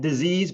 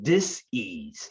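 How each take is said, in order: First: It is said smoothly as one word. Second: It is split into two separate parts. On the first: It means an illness. The speaker calls it wrong. "not disease" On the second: It means a lack of ease. The speaker calls it right. "but dis-ease"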